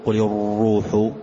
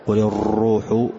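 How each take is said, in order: The two takes are said the same way.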